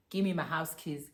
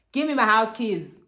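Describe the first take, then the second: First: Said in the usual way. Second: Imitated loud, insistent order; loud demand. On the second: Boyfriend leaving demands his keys, loud demand. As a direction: demand it loudly, as in a retold row. Retold demand repeated louder for effect.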